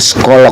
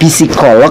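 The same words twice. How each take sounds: First: The word ends without a clear k sound. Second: The word ends with a clear k sound. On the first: "Lok atau loh?" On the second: "Lok atau loh?"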